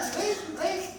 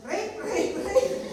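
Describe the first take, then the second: First: High mock cry for help, a bit less loud; mock scream. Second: High, loud mock scream of a false accuser. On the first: Preacher repeating Potiphar's wife's false cry, high mock scream. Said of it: "Sabi niya". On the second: Preacher acting Potiphar's wife crying out falsely, high mock scream. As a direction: shriek it high as a play-acted cry for help. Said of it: "Bigla siyang sumigaw".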